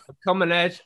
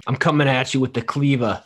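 First: Higher retry at British, breaking into laughter; failed British accent. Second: Failed British coming out Brooklyn; Brooklyn accent. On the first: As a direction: attempt British and give up laughing. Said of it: "I can't do the British accent". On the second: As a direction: threaten as Gordon Ramsay with a Brooklyn accent. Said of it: "He's not from Brooklyn". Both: Acted.

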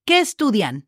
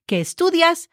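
First: "¿Qué estudian?" ending on a clear n in "estudian"; plural ending. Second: "¿Qué estudias?" with a clear final s on "estudias"; singular ending. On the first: Teacher contrasting plural with singular, clear final n. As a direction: close "estudian" on the n. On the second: Teacher contrasting singular with plural, clear final s. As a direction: land on the s of "estudias". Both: Shown as a demonstration. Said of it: "change the S as in Sam for an N".

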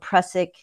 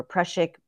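First: "prussic" with a plain s in the middle; pronunciation with s. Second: "prussic" with sh in the middle; pronunciation with sh. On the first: Herbalist naming the acid for listeners, "prussic" with plain s. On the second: Herbalist offering another pronunciation, "prussic" with sh. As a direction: say "prussic" as PRUSH-ik. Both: Shown as a demonstration. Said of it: "or prussic".

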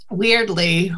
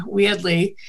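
First: Said in the usual way. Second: "weirdly" with a Boston dropped R; Boston accent. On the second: Shown as a demonstration. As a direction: say "weirdly" as "wee-udly", Boston-style. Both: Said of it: "other words we say really weirdly".

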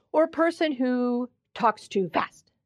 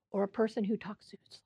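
First: Said in the usual way. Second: Fast, breathy whisper. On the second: Shown as a demonstration. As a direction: whisper the question quickly. Giving examples of speech stereotypes.

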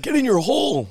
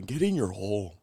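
First: High, shouted golf taunt; Happy Gilmore voice. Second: Put-on Native American accent. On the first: Pretend. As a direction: bark it at the ball. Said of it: "Happy Gilmore?". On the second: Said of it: "mixed with, like, a Native American accent".

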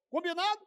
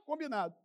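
First: "Combinado" high, rising at the end; lifted, questioning "Combinado". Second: "Combinado" softer, falling at the end; quieter, closed-off "Combinado"; agreeing COMBINADO. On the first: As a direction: ask "Combinado" as a check, pitched up. Acts leader asking plotters to agree. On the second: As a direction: answer "Combinado" as a settled yes. Acts plotters agreeing in answer. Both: Acted.

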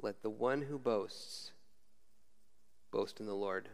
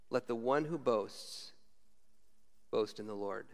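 First: Quiet reflective scripture reading; slower, softer repeat. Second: Each word given weight; measured scripture reading; slow emphatic reading. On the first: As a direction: let it sink in, hushed and slow. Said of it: "just take that verse with you". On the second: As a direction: read it out slowly with solemn weight. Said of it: "This is a quote from the Old Testament". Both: Shown as a demonstration.

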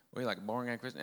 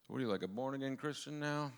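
First: Put-on half-hearted Rhode Island accent; faint, quick stab at Rhode Island speech; attempted Rhode Island accent. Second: Said in the usual way. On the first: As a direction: try a Rhode Island accent, not quite getting it. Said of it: "can't even do a Rhode Island accent". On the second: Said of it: "They didn't talk like that".

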